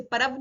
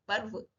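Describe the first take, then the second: First: परव as "pa-rav", full vowel after r; misread with added vowel. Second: पर्व as "parv", no vowel after r; light र. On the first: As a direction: open up the r in परव to "ra". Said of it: "परव नहीं पढ़ेंगे". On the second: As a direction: tap the r softly straight into v in पर्व. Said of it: "हल्के से र". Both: Shown as a demonstration.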